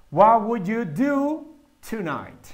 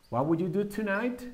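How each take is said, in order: First: Slow and deliberate, words spaced out; slow model sentence. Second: Said in the usual way. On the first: Shown as a demonstration. Teacher showing students the structure, slowly. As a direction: lay each word down for the class. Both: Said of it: "tenemos ese conocimiento de cómo utilizar esa estructura".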